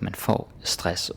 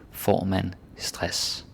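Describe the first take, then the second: First: Slow example. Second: Slow, even Danish phrase; slow inverted example. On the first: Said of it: "you say just the noun". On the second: Teacher showing word order, said slowly. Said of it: "or with inversion". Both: Shown as a demonstration.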